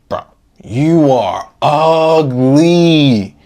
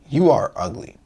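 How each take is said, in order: First: The line is said with strong emotional charge. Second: The line is said flatly, without emotion.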